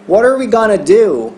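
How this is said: The stress falls on the word do. "Terminaria com esse do, a ênfase da frase"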